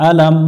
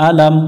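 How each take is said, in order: No difference in how they are said.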